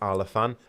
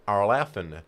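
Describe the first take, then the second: First: The word is said in a non-American accent. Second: The word is said in an American accent. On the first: "For me, it's Arlafan" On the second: "I literally have to put on an American accent to say Arlafen"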